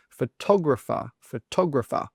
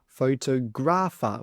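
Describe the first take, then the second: First: "Photographer" with the stress punched on tog. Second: "photographer" with stress on gra; wrong stress on gra. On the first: Teacher modelling the correct stress. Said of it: "the stress should be on the tog". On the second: Teacher showing students' wrong stress. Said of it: "A lot of students incorrectly say photographer". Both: Shown as a demonstration.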